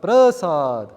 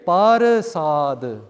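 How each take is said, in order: First: The p and r join in one cluster. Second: The p and r are split by a vowel. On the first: "The papa becomes smaller" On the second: "compared to here parasad"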